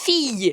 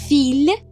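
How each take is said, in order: First: The word ends with a Y sound. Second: The word ends with an L sound. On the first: The speaker calls it right. "You pronounce as fille" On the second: The speaker calls it wrong. "Do you pronounce as fille? No, you don't"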